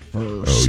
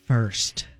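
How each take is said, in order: First: It is said in a deeper voice. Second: It is said in a normal voice.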